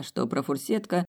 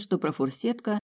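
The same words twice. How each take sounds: First: Профурсетка said flat and falling, sobered; профурсетка with a plain falling tune; plain sober word. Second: Профурсетка said high and light, as something airy; профурсетка, lifted and dreamy, like a sweet; light airy word. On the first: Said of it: "позже Родионова поняла". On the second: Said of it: "ей казалось, что профурсетка — это что-то лёгкое". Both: A narrator's reading.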